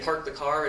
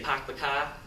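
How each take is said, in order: First: It is said in the speaker's local, non-Boston accent. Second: It is said in a Boston accent.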